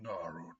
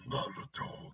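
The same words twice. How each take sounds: First: It is said in a Hyorimaru character voice. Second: It is said in a Kurama character voice.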